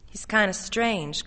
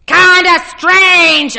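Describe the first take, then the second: First: Said in the usual way. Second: Loud, high, slow mocking cry. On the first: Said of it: "Connie said". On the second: A narrator's reading. Arnold echoes Connie's words to Ellie, a loud jeering cry. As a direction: stretch kinda strange out in a loud jeering cry. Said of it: "Arnold Friend cried".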